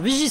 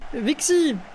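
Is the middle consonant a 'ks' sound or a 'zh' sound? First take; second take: zh; ks. First: The middle consonant is said as 'zh'. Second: The middle consonant is said as 'ks'. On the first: The speaker calls it right. "c'est vrai que c'est un X mais ça se prononce G" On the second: The speaker calls it wrong.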